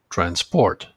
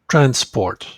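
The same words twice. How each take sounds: First: The stress is on the second syllable. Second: The stress is on the first syllable. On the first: It is used as a verb. "the second one is the verb form" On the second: It is used as a noun. "that's the noun form"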